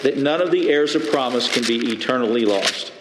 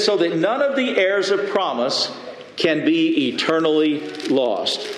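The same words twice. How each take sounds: First: Said in the usual way. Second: Raised quoting voice. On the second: Shown as a demonstration.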